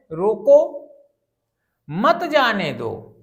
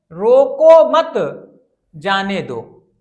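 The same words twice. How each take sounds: First: "रोको", a clear stop, then slow "मत जाने दो"; pause after रोको. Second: Loud drawn-out "रोको मत", a stop, then lower "जाने दो"; pause after मत. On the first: Teacher shows the comma's place: pause after "रोको". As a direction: break the sentence right after "रोको". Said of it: "रोको के बाद में विराम चिन्ह का प्रयोग हो गया". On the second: Teacher shows the moved comma: pause after "मत". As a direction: break the sentence after "मत", not after "रोको". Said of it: "यहाँ विराम चिन्ह मत के साथ प्रयोग हुआ है". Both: Shown as a demonstration.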